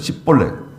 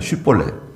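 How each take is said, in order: First: The word begins with an s sound. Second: The word begins with a sh sound. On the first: This is how the Ephraimites said it. The speaker calls it wrong. "십볼렛으로 되는 거예요" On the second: This is how it should be said. The speaker calls it right. "쉬볼렛이라 그래야 되는데"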